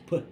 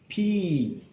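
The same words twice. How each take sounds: First: The letter is said as its speech sound. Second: The letter is said as its alphabet name. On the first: "But the sound is P" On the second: "the name is P"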